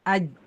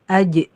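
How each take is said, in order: First: The j stops with no echoing bounce. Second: The j releases with an echoing bounce. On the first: "sekarang jangan dulu dipantulin" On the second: "akhirnya menimbulkan mantul"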